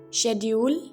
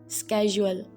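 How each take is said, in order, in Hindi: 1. यह ब्रिटिश लहजे में कहा गया है। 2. यह अमेरिकी लहजे में कहा गया है। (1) "British English speakers uh, pronounce this word as uh, schedule" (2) "in American English they uh, pronounce like schedule"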